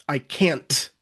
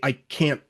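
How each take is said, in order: First: The final t is clearly released. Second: The final t is a glottal stop. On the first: "I don't say I can't" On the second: "I say I can't"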